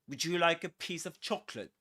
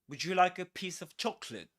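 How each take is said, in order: Both takes have the same delivery.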